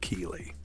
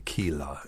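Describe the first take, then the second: First: The final vowel is a high 'ee' sound. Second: The final vowel is an open 'ah' sound. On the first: "instead of Keely" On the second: "they'll say Keela"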